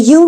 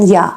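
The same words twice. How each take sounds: First: "you" with a full oo; full form. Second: "یا" as a short "ya"; reduced form. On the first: Teacher naming the word before reducing it, full form. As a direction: say "you" unreduced. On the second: Teacher showing how Americans say it, reduced. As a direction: weaken the vowel to "یا". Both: Shown as a demonstration.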